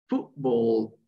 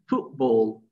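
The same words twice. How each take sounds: First: The middle consonant sounds like a p. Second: The same.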